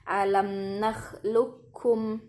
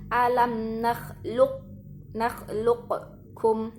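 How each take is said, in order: First: The q merges directly into the k sound. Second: The q is released separately before the k. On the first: The speaker calls it right. "yang benar adalah masuk ke huruf kafnya langsung" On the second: The speaker calls it wrong. "Salah apabila teman-teman baca"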